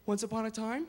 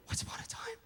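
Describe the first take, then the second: First: Even fairy-tale narrator; storybook opening. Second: Breathy hushed storyteller whisper; whispered wonder. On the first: Parent starting a bedtime story, calm storybook read. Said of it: "great way to start a story". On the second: Storyteller hushing a child, Once upon a time whispered. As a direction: whisper it like a magical secret. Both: Shown as a demonstration.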